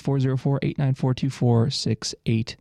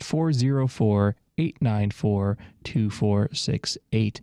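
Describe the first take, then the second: First: The number is said fast. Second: The number is said slowly.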